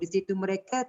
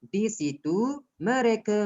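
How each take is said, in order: First: The words run on with no pause. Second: There is a short pause after 'situ'. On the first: The speaker calls it wrong. "Awak tak boleh sambung" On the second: The speaker calls it right. "berhenti kejap"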